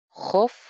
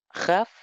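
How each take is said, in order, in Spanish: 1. La sílaba se pronuncia con la vocal 'o'. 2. La sílaba se pronuncia con la vocal 'a'. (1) "sino jof" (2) "ahí no es jaf"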